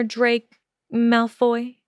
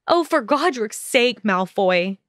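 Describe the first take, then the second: First: "Drake Malfoy" said slowly and a bit higher, the wrong first name. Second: A moderate exasperated shout, pitch up on Oh. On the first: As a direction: stumble into "Drake Malfoy" instead of Draco. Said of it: "He frowned at her mistake". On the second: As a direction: fling his name back at him in exasperation. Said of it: "Hermione shouted". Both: Acted.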